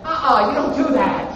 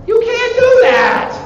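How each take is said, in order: First: Said in the usual way. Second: High, loud, drawn-out telling-off; mock scolding shout. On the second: World's states warn an invader off, high mock scolding shout. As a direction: cry out a slow, high-pitched warning. Repeats the warning, escalating.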